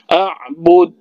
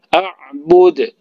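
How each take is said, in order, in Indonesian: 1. Huruf d terakhir ditahan lalu dipotong. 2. Huruf d terakhir dilepas dengan pantulan. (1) "Misalnya bersabdu a'bud. Nah, itu salah" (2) "Yang benar adalah a'bud. Jangan ditahan"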